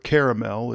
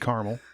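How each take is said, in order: First: The word is said with three syllables. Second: The word is said with two syllables. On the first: This is the standard pronunciation. The speaker calls it right. "as it's supposed to be pronounced" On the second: This is how people from the Midwest say it. The speaker calls it wrong. "If you're from the Midwest, you say"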